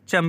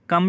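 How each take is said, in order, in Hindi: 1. शब्द ch ध्वनि से शुरू होता है। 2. शब्द k ध्वनि से शुरू होता है। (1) "जगह जगह चम भी बोला जाता है" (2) "कितना को अरबिक में कम"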